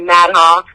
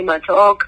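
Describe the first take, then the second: First: The surname is said with an American accent. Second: The surname is said with an Indian accent. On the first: "Americans say" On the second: "in India, people say"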